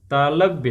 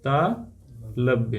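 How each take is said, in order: First: Said in the usual way. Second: तालव्य very slowly, split as ता, long pause, लव्य; slow dictation. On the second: Shown as a demonstration. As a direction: break तालव्य apart, low, for note-taking. Teacher dictates term in pieces. (तालव्य को बहुत धीरे, तोड़कर बोलें)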